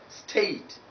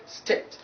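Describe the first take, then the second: First: "state" with gliding ay; diphthong ay. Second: "state" said "stet"; short e in "state", no glide; wrong short vowel. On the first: Teacher giving the correction, diphthong ay. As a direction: glide e towards i in "state". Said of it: "it is taking diphthong number". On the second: Teacher rejecting the mispronunciation, short e. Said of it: "It's not state". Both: Shown as a demonstration.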